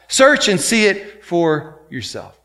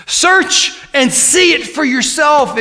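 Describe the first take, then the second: First: Said in the usual way. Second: Shouted exhortation. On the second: Shown as a demonstration.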